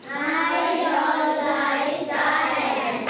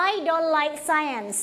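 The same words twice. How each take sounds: First: Sing-song chant. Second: I don't like science said slowly and clearly for the class to repeat; slow it right down so they can echo; slow choral model. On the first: Real, not acted. Class chants sentence together. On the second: Shown as a demonstration. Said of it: "say it together". (ครูอ่าน I don't like science ช้าๆ ให้นักเรียนพูดตาม)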